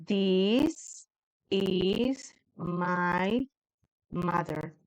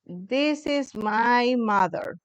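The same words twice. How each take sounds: First: Hesitant, halting "This is my mother", trailing softer; a student trying "This is my mother" for the first time; broken-up hesitant "This is my mother"; unsure student attempt. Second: Slow, careful English reading of "This is my mother"; teacher slowly models "This is my mother". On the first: Para que yo sepa cómo decirlo. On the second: Shown as a demonstration. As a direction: spell out "This is my mother" slowly for the class. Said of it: "This is M Y, mother".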